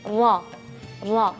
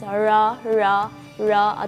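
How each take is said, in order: First: The tongue taps the roof of the mouth once. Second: The tongue curls back without touching, like English r. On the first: The speaker calls it right. "dia bergetarnya hanya sekali saja" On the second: The speaker calls it wrong. "terlalu ditekuk kedengarannya yaitu uh, R manja atau R bahasa Inggris"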